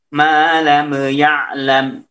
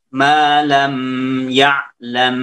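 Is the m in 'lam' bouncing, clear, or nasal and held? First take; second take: bouncing; nasal and held. First: The m ends with a small bouncing echo. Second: The m is held with a nasal hum. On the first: "itu mantul" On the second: "Mim sukunnya ketahan sehingga ada gunnah di situ"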